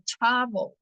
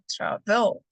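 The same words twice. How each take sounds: First: The stress is on the first syllable. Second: The stress is on the second syllable. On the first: The speaker calls it right. "mi stress está en la primera sílaba. Digo travel" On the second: The speaker calls it wrong. "no travel"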